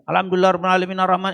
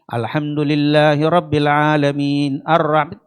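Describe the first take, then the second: First: The words run together without breaks. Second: The words come in short, separate pieces. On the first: The speaker calls it wrong. "itu bukan tartil" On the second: The speaker calls it right. "pendek-pendek tartil"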